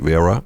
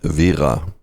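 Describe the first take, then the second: First: It is said with an English pronunciation. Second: It is said with a German pronunciation. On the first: "Anglophile people will normally say Vera, because they roll the R" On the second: "The correct pronunciation in German"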